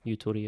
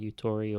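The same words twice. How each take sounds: First: It is said with a Japanese pronunciation. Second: It is said with an English pronunciation.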